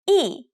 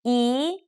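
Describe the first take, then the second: First: The pitch falls sharply from high to low. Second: The pitch rises from middle to high.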